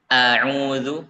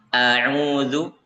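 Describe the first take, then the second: Both takes have the same delivery.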